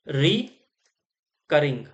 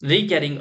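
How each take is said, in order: First: It begins with a short 'ri' and 'cur'. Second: It begins with a long 'ree' and 'care'. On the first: The speaker calls it right. "इसे बोला जाता है आपकी रिकरिंग" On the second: The speaker calls it wrong. "रीकैरिंग नहीं बोलते"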